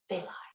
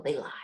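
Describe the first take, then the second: First: They lie whispered, much softer, no voice; whispered repeat. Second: Said in the usual way. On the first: Retold or imitated. Mom warning daughter about liars, hushed whisper. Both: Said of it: "and she goes".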